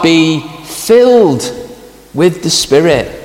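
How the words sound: The stress falls on the word filled. Believers receive something they do not already have. The speaker calls it wrong. "The emphasis is not on the word filled. It is not be filled with the Spirit"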